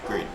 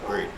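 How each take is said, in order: Both takes have the same delivery.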